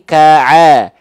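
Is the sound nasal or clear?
clear. The sound stays out of the nose. The speaker calls it right. "tapi ka'a"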